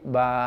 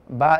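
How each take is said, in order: First: The vowel is held long. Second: The vowel is short.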